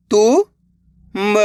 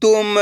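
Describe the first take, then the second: First: Each syllable sounded separately, pauses between; letter by letter. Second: Said in the usual way. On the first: Shown as a demonstration. Teacher sounds out a word for beginners, letter by letter. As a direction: break the word into its letters, slowly. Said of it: "एक ही अक्षर का उच्चारण". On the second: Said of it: "तो मिलके बन जाएगा".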